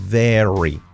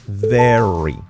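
First: It begins with a buzzing voiced v sound. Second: It begins with a buzzing voiced v sound.

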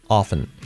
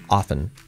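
First: The T sound is left out entirely. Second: The T sound is left out entirely.

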